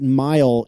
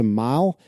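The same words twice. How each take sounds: First: The vowel is said short and plain. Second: The vowel is drawn out, Southern-style.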